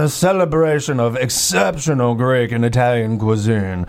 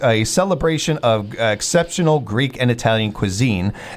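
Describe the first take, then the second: First: It is read in a grand, theatrical put-on voice. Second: It is read in an ordinary, plain voice. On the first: The speaker calls it right. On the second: The speaker calls it wrong.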